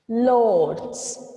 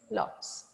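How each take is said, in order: First: The word is drawn out and lengthened. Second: The word is said at normal length. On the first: "when I said lots, it is stretched" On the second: "If you read this word L O T S"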